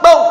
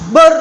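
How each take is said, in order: First: The final r is cut off abruptly. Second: The final r flows out freely. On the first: "Misalkan ro ini disyidahkan, maka begini" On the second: "kalau dirikhwahkan ber lepas"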